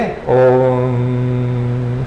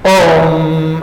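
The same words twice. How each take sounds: First: The word is said softly and gently. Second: The word is said loudly and forcefully. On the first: It helps one fall asleep at night. "रात को सोने के लिए ओम soft" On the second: It wakes up the life energy in the morning. "थोड़ा जोर से ओम ओम ऐसे"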